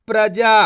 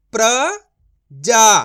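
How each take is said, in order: First: प्रजा joined into one word, loud and clear; blended whole word. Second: प्रजा broken as "pra... jaa", long pause, loud; syllable by syllable. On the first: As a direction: read प्रजा in one go without a break. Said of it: "तो मिलके बन जाएगा". (प्रजा को जोड़कर एक साथ बोलें) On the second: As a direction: sound out प्रजा very slowly in two separate parts. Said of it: "direct मात्रा का उच्चारण करके पढ़ेंगे". (प्रजा को "प्र... जा" तोड़कर धीरे बोलें) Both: Shown as a demonstration.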